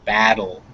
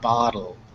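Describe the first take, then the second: First: The first vowel is made at the mouth's front. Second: The first vowel is made at the mouth's back. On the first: The speaker calls it right. "ah is in the front of your mouth" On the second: The speaker calls it wrong. "not bottle"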